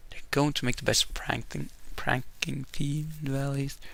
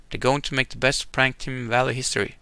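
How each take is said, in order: First: Much softer, half to herself; muttered second read; softer reread. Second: Said in the usual way. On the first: Real, not acted. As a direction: mumble the choice over again. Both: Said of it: "reading choice again".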